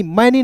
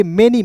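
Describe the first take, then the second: First: मैनी with a short a like "məni"; wrong pronunciation. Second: मैनी with an e like "meni"; correct pronunciation. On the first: Teacher warning students off मैनी. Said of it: "मैनी नहीं पढ़ेंगे". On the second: Teacher modelling मैनी for students. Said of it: "इसे पढ़ेंगे मैनी". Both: Shown as a demonstration.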